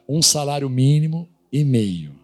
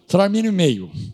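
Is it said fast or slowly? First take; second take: slowly; fast. First: It is said slowly. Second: It is said very fast.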